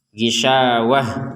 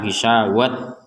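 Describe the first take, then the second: First: The word ends with a soft h sound. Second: The word ends with a t sound. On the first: The speaker calls it right. "huruf ta marbutohnya ini dibaca dengan ha" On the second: The speaker calls it wrong. "jangan dibaca sebagai ... gisawat, enggak boleh"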